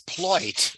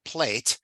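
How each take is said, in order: First: The vowel sounds like oi. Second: The vowel sounds like ay, northern accent.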